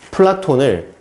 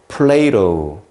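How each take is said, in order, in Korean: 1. 이 이름은 한국식으로, Platon처럼 발음합니다. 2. 이 이름은 영어식으로, Playdo처럼 발음합니다.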